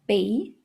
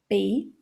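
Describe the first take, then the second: Both takes have the same delivery.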